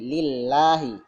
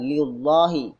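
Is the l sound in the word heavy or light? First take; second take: light; heavy. First: The l sound is light and thin. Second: The l sound is heavy and dark. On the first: The speaker calls it right. "Terkecuali kasrah dibaca tipis" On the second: The speaker calls it wrong.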